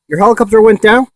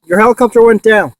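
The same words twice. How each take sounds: First: "Your helicopter went down?" asked with a rise on "went"; rising question. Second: "Your helicopter went down." as a statement, falling, weight on "helicopter". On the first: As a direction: ask it in disbelief, lifting "went" and the end. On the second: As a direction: confirm it flatly, stress "helicopter". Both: Real, not acted.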